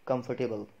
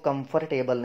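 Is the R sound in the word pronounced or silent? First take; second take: silent; pronounced. First: The R sound is silent. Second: The R sound is clearly pronounced. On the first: The speaker calls it right. "आर इसमें भी silent है" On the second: The speaker calls it wrong. "इसको comfortable नहीं"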